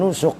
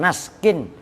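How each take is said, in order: First: The word has u vowels throughout. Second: The word ends in -kin with no vowel after s. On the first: "bukan nusuk" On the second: "bukan naskin"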